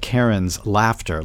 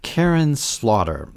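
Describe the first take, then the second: First: The s sound ends the first word. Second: The s sound begins the second word. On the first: It sounds less violent. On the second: It is the author's actual name.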